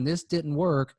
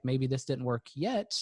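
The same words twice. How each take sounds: First: "work" lands on a firm falling tune, shutting the door; a closed-off statement of failure; closed, final statement. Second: "yet" lifted on a gentle rise, a little slower and softer; tentative hopeful rethink; open, hopeful tune. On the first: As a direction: say "This didn't work" as a flat, final verdict. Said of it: "that's kind of a finite statement". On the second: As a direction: let "yet" rise and hang, leaving the door open. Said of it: "Let's keep the door open". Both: Shown as a demonstration.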